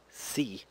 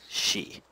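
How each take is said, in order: First: The syllable begins with a plain s sound. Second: The syllable begins with an sh sound. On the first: The speaker calls it wrong. "This is not pronounced as si" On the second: The speaker calls it right. "but more as she"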